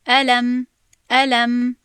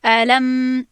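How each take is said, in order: First: الم recited loudly with measured time on ل and م; measured letter timing. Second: الم recited loudly with the final م held too long; overdone letter timing. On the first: Teacher showing how long letters get, measured timing. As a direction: give the م of الم its due time, without excess. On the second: Teacher showing students a bad excess, overlong meem. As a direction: drag the closing م of الم out to excess. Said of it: "این زیادی بد شد". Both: Shown as a demonstration.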